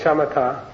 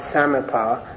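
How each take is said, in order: First: "shamatha" said SHA-ma-ta, with a hard T; correct pronunciation. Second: "samatha" opening with a plain S instead of SH; mistaken S pronunciation. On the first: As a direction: open "shamatha" with SH and end it on "ta". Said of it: "this is the correct pronunciation". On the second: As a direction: say "samatha" starting "sam", not "sham". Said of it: "Some people leave out the H here". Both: Shown as a demonstration.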